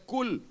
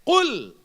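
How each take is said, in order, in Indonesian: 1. Konsonan pertama adalah bunyi k biasa di bagian depan. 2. Konsonan pertama dibunyikan dalam tenggorokan. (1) "Tapi bila lafaznya tidak fasih, dia kata kul" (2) "Bila disebut dengan huruf qaf di dalam leher"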